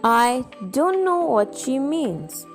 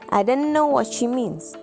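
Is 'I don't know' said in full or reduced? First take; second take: full; reduced. First: 'I don't know' is said as three full words. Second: 'I don't know' is squeezed into one short word.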